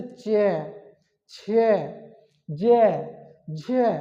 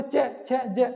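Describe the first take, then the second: First: चे, छे, जे, झे drawn out, opening slowly; long, separated demonstration of चे, छे, जे, झे; lengthened pronunciation. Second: चे, छे, जे said short, opened at once; quick, short vowels on चे, छे, जे; wrong short pronunciation. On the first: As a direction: open the mouth gradually through each of चे, छे, जे, झे. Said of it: "लंबा खोलना पड़ेगा ... धीरे धीरे खोलेगा". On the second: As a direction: cut चे, छे, जे short without a glide. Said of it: "तो उच्चारण गलत हो जाएगा". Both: Shown as a demonstration.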